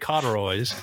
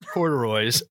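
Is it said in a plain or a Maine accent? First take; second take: Maine; plain. First: It is said in a Maine accent. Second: It is said in a plain, ordinary accent.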